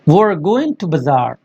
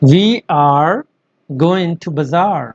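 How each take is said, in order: First: 'We are' is run together into one syllable. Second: 'We are' is said as two full words.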